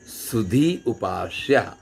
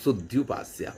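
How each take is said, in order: First: A full long ee vowel precedes upasya. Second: The ee becomes a y glide into upasya. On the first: "वैसे तो वास्तव में क्या था, सुधी और उपास्य" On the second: "धा का ई था वो या हो गया"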